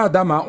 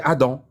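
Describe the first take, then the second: First: Adama with an open final -ma; Adama, the final syllable sounded as "ma"; pronounced Adama. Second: Adam with a nasal French ending; Adam, final vowel nasal, no "ma"; pronounced Adam. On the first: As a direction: say Adama, three syllables ending in a clear "a". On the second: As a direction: say Adam as "a-dan", two syllables. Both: Shown as a demonstration. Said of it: "La prononciation Adam".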